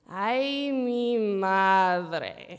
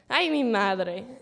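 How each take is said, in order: First: It is said slow and drawn out. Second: It is said short and quick.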